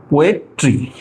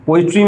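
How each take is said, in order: First: poetry broken up with a pause before the last syllable; syllable-by-syllable teacher's demo of poetry; split into syllables. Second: Said in the usual way. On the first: Shown as a demonstration. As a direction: say poetry in pieces, पोए, then tree. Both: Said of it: "तो ये इसका syllable हो गया".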